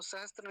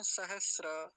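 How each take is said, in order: First: सहस्त्र as sahastra, intrusive t; wrong form. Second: सहस्र slow, sahas-ra without t; correct form. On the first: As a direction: say सहस्त्र with a t before ra. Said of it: "नहीं बोलेंगे". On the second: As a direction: hold s, release straight into ra in सहस्र. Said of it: "ऐसा होता है". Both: Shown as a demonstration.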